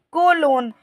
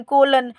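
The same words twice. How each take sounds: First: "कोलोन" with a long o in both syllables; corrected pronunciation. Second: "कोलन" with a short, reduced second vowel; rejected pronunciation. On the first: Teacher correcting for students, "कोलोन" with a full long second o. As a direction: say "कोलोन" as ko-LOAN. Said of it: "इसको भी बोलेंगे". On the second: Teacher reading the word, "कोलन" with a weak second syllable. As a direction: say "कोलन" as KO-lun. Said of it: "इसको कोलन नहीं बोलेंगे". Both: Shown as a demonstration.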